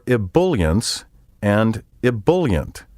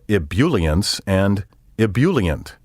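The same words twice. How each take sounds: First: The second syllable sounds like bull. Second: The second syllable sounds like bule. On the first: The speaker calls it right. "with the B U L pronounced like the word bull" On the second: The speaker calls it wrong. "The bool and bule sounds are wrong"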